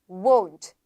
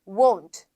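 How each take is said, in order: Both takes have the same delivery.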